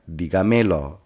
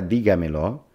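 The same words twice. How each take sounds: First: Dígamelo said with the stress moved to "me", as "digaMElo"; misplaced stress. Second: Dígamelo with the force on the first syllable, "dí"; stress on DÍ. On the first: Teacher showing dígamelo without its written accent, stressed on "me". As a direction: stress the second-last syllable of dígamelo, "digaMElo". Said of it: "Si la palabra dígamelo no tuviera un acento escrito". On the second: Teacher showing where dígamelo takes its force, stress on "dí". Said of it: "La sílaba que lleva más fuerza en la pronunciación". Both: Shown as a demonstration.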